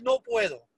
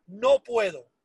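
First: High, mocking whine on "no puedo"; mocking whiny no puedo. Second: Said in the usual way. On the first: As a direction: sneer "no puedo" up high like a tired excuse. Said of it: "me cansé del". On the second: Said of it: "me cansé de decirle a mi familia".

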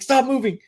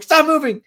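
First: High, urgent stop moving; mock panicked order. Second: High, loud repeated stop moving; louder panicked order. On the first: Warning her sister about the snake, high and urgent. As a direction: urge her to freeze. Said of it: "I'm like". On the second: Retold or imitated. Repeating the warning to her sister, higher and louder. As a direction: insist harder, frightened. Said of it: "And I'm like".

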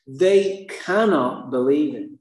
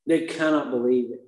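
First: Slow emphasis. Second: Said in the usual way. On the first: Shown as a demonstration.

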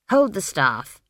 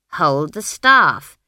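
First: Said in the usual way. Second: Loud, slow, insistent command; insistent order. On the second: A narrator's reading. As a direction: repeat the order slowly and forcefully. Granny repeats her order insistently.

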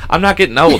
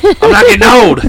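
First: Firm, raised-pitch protest; insistent denial. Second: Loud, high-pitched indignant denial; loud protest. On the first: Host refusing to accept getting old, insistent denial. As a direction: deny it flatly to the teaser. Denying age to teasing partner. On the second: Host refusing to accept getting old, loud protest. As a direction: shout it down in protest. Repeats the denial, much louder. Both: Real, not acted.

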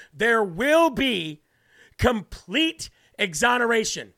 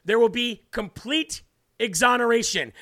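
First: "There will be" slow, each word stressed; capitals emphasis. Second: Said in the usual way. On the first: Shown as a demonstration. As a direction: say "complete exoneration" as if in capital letters. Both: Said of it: "he puts that in capital letters".

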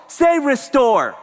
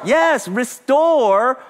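First: Restore drawn out slow and loud; call to repeat restore. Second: "restore" stretched slow, high and loud; emphatic repeat. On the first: Pastor prompting congregation, slow emphatic call. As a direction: lead the crowd to say "restore" slowly. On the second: Pastor confirming congregation's echo, slow stress. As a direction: affirm the word "restore" slowly and strongly. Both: Shown as a demonstration.

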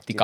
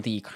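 First: TIKA with a short first i; clipped short-vowel "Tika". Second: TIIKA with a long first i; drawn-out ee sound in "tiika". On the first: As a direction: say "Tika" as written, quick single i. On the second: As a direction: stretch the i in "tiika". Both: Shown as a demonstration. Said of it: "miksi se lausutaan tiika".

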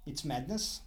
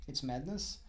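Both takes have the same delivery.

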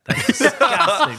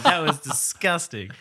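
First: High, loud laughing groan; cracking up at a gross sound; laughing disgust. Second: Drawn-out, pointed verdict; slow, emphatic disgusted verdict; slow, deliberate. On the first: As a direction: laugh through it in real disgust. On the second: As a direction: say it slowly, lingering on disgusting. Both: Real, not acted. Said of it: "I gotta cut that".

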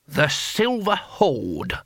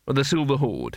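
First: Very slow, higher, drawn-out announcement; touch of pride. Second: Said in the usual way. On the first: A narrator's reading. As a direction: savour the grand name slowly. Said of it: "with a touch of pride".

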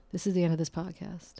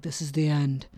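First: Said in the usual way. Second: A hint of a doom-laden movie announcer; mock-ominous end line, lightly voiced. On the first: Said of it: "I don't wanna be ominous". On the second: Shown as a demonstration. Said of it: "I don't wanna be ominous and be like".

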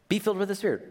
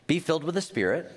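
First: "filled" lifted above the rest of the line; stress on filled. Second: Said in the usual way. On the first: Shown as a demonstration. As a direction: make "filled" the key word. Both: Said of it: "Be being filled".

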